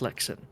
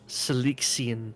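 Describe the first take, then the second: First: The name ends with an 'on' sound. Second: The name ends with an 'ian' sound. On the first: The speaker calls it right. "I literally had to like train myself to say it" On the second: The speaker calls it wrong. "it'll come out like Selexian"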